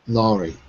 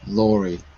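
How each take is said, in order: No difference in how they are said.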